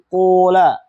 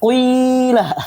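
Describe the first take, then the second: First: The first vowel is a pure u sound. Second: The first vowel is i mixed with u. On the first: "Boleh bagi kamu mendhamma fa-fa-nya" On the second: "Kita pengen bilang qila, tapi ada dhammahnya sedikit"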